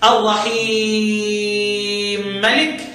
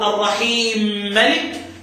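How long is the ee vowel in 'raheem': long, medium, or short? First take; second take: medium; short. First: The ee vowel is held for four counts. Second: The ee vowel is held for two counts. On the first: "والتوسط" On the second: "القصر"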